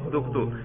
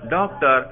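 First: It ends in a long 'toor' sound. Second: It ends in a short 'tar' sound. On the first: This form was adapted to be easier to pronounce. "اب وہ کہتے ہیں دکتور" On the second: This is the original borrowed form. "انگریزی میں طبیب کو کیا کہتے ہیں, ڈاکٹر"

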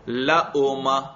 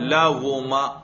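First: The middle sound is a full glottal stop. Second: The middle sound is a full rounded w. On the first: "اس کو ذرا حمزہ کے ساتھ پڑھو" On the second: "اس کو واو کے ساتھ پڑھو"

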